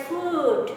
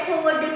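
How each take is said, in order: First: "food" with a long, drawn-out oo; correct long oo. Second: "food" with a short vowel, like "fud"; mispronounced food. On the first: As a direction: stretch the vowel in "food" to "foood". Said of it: "It is actually pronounced as food". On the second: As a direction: say "food" wrongly, cutting the oo short. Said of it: "Don't say F O O D food". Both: Shown as a demonstration.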